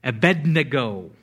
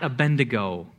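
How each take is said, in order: First: "Abednego" as a-BED-ne-go, D before N; correct pronunciation. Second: "Abednego" mispronounced as a-BEN-de-go; wrong pronunciation. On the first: Preacher correcting the congregation, "Abednego" as a-BED-ne-go. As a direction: say "Abednego" firmly as uh-BED-nuh-go. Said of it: "how to pronounce this name". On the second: Preacher showing what it is not, "Abednego" as a-BEN-de-go. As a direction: slip an N into "Abednego": uh-BEN-duh-go. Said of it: "It is not Abednego". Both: Shown as a demonstration.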